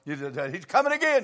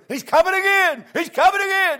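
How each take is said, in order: First: Said in the usual way. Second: High, loud excited shout; shouted response. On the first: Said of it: "what I'm trying to emphasize". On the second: Retold or imitated. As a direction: jump up and shout it back like the crowd. Congregation jumping up, shouting.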